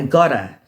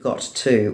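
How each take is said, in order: First: The phrase is reduced with the T sounds dropped. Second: The phrase is said in full with clear T sounds.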